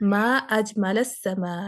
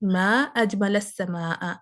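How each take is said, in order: First: The vowel endings are those of an exclamation. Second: The same.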